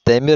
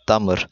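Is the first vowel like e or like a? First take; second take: e; a. First: The first vowel is an e sound. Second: The first vowel is an a sound. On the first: "Demir mi diyeyim?" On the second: "demire damır diyorsun"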